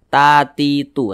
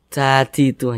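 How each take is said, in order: First: The t sounds have no puff of breath. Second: The t sounds have a puff of breath. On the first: The speaker calls it right. "Kita baca tatitu seperti itu" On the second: The speaker calls it wrong. "jangan jangan"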